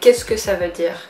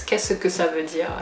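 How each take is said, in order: First: It is said in a Parisian accent. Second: It is said in a southern French accent. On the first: "In Paris, we would say" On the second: "in the south of France, they pronounce every like syllable really well. So I'm really gonna imitate it"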